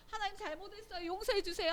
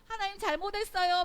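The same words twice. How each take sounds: First: High, softened plea; acted true repentance. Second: High, loud mock repentance; lip-service apology. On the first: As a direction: ask forgiveness in a high voice, held back at first. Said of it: "하고는 돌아서". (높은 목소리로 조심스레 용서를 비는 연기) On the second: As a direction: toss out a loud, high-voiced apology for show. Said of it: "말만". (높고 큰 소리로 말로만 비는 사과)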